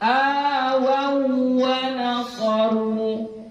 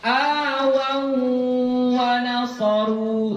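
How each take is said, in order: First: The doubled w is held without nasal hum. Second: The doubled w is held with a nasal hum. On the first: The speaker calls it right. "sekedar tasydid saja" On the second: The speaker calls it wrong. "jangan dibaca awawa nasaru, salah"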